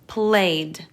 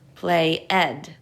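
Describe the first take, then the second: First: The ending is a d sound. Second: The ending is an extra syllable, ed. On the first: The speaker calls it right. "the ed in this case is saying d" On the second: The speaker calls it wrong. "Let's try the other sounds for ed"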